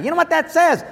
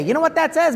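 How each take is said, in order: First: You know what that says? pushed higher, SAYS leaned on; pressing the question. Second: Said in the usual way. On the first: Retold or imitated. Husband presses his wife, asking higher and harder.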